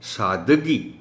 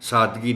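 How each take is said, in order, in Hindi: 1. d ध्वनि के बाद एक छोटा अ स्वर आता है। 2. d ध्वनि के बाद कोई स्वर नहीं आता। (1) "दाल पर ज़बर है" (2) "दाल को जज़्म के साथ नहीं पढ़ा जाना चाहिए"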